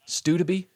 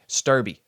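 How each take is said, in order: First: The name has three syllables with a d sound. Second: The name has two syllables and no d sound. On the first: "Adding a whole syllable in there, dude. There's a silent D" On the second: "It looks like Sturby"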